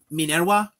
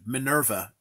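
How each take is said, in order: First: The name is given a Latin-style pronunciation. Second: The name is given an English-style pronunciation. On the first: "that's the Latin pronunciation" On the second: "Minerva is is is fine in English too"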